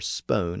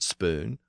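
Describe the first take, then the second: First: The vowel is a long oh sound. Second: The vowel is a long oo sound. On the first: This is how the word was likely said in Old English. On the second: This is the modern form of the word.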